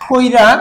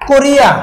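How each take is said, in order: First: The i sound comes before the r. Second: The i sound comes after the r. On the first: "আগে উচ্চারণ হয়েছে" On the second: "এই রয়ের পরে রস্বীকার ছিল"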